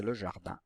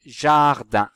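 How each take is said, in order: First: Said in the usual way. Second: JARDIN loud, with JA stretched; teacher sounding out JARDIN; emphatic word demo. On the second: Shown as a demonstration. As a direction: hit and hold the JA of JARDIN. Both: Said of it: "la syllabe ja".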